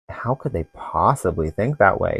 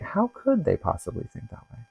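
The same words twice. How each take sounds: First: It sounds disapproving and dismissive. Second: It sounds open and genuinely wondering. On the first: The other person's view is rejected as absurd. The speaker calls it wrong. "instead of" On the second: The asker wants to understand the other person's view. The speaker calls it right. "it could be like"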